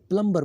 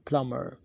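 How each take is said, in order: First: The b sound is pronounced in the middle. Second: The b sound is left silent in the middle. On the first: The speaker calls it wrong. "इसे हम normally प्लम्बर बोलते हैं।" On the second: The speaker calls it right. "बी silent है और इसे हम बोलते हैं प्लम्बर"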